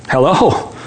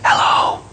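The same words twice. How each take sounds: First: Said in the usual way. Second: Put-on small child's whisper. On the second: Little boy answering the phone, whispering. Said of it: "a small voice whispered".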